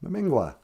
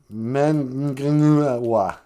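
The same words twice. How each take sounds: First: "Memengwa" said as /məmɪŋɡwɑ/, short and falling; correct pronunciation. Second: "Mengenetwa" sounded out slowly as spelled; wrong spelling "Mengenetwa". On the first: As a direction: say "Memengwa" the right way, crisply. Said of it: "how it's supposed to be". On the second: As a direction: drag out the wrong form "Mengenetwa". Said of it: "did I misspell that". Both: Shown as a demonstration.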